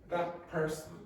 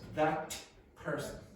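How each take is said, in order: First: The T blends into the following P sound. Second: The T is pronounced as a clear T. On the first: "you will hear" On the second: "instead of"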